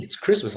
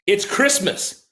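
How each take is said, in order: First: Said in the usual way. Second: "It's Christmas" stretched slow and pitched up; drawn-out emphasis. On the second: Retold or imitated. Quoting his partner's exasperated reminder on Christmas, drawn out. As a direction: lean into "Christmas", slowly, in disbelief.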